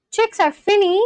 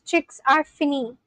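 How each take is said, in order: First: Higher, questioning "Chicks are finny?"; puzzled echo question. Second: Said in the usual way. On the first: Real, not acted. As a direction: query "finny" as if you don't get it. Questions the comment just read out.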